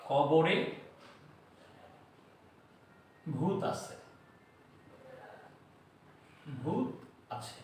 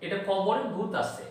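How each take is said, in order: First: "কবরে" ... "ভূত" ... "আছে" each alone with long pauses; word by word. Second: Said in the usual way. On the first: Shown as a demonstration. Teacher to students, chunking the mnemonic slowly.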